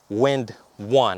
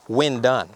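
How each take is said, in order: First: The second part begins with a 'w' sound. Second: The second part begins with a 'd' sound. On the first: The speaker calls it right. "it's supposed to be, you know, Wind One" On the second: The speaker calls it wrong. "I keep reading this thing Wind done"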